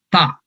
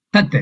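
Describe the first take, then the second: First: Ta said open, no final t; open syllable. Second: Tat said with its closing t; full syllable. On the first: Teacher corrects himself to the first syllable Ta, open. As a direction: say just Ta, the bare first syllable. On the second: Teacher tries the opening syllable Tat, clipped. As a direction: say Tat whole, ending on t. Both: Shown as a demonstration. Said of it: "It starts with Ta".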